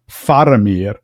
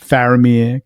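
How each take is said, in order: First: The first vowel is like the 'a' in father. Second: The first vowel is like the 'a' in cat. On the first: The speaker calls it right. "it really should be" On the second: The speaker calls it wrong. "we frequently say"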